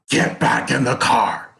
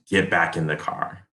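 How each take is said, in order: First: It is screamed loudly like the cop. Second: It is said calmly at normal volume.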